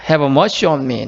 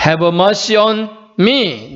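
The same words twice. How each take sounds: First: Said in the usual way. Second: "Have mercy on me" very drawn out; slow quotation. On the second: Shown as a demonstration. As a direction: say "Have mercy on me" word by word, slowly. 영어 기도 문구를 천천히 보여줌. ("Have mercy on me"를 아주 천천히 끊어서)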